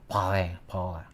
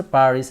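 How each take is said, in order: First: "Paris, Paris." as pah-REE, throaty R, silent S, a bit softer; "Paris, Paris." with a phlegmy back-of-throat R and no S; French Paris. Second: Said in the usual way. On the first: Shown as a demonstration. Vlogger teaching viewers to say it like the French, throaty French R. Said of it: "you have to have a phlegm to pronounce the R". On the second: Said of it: "learned how to pronounce Paris".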